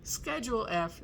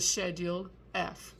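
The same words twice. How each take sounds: First: It is said in an American accent. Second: It is said in a British accent.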